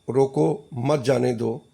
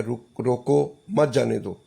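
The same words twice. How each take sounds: First: Slow, with a clear break after रोको; रोको, then a pause, then मत जाने दो. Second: रोको मत read as one, then a break before जाने दो; pause after मत. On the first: Teacher showing a comma after रोको. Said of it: "जैसे जमील कहे किसी को". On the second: Teacher showing the comma moved after रोको मत. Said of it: "आप इसको समझें". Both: Shown as a demonstration.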